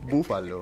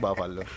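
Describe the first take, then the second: First: The first vowel sounds like 'oo'. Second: The first vowel sounds like 'a'. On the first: The speaker calls it right. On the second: The speaker calls it wrong. "όχι μπάφαλο"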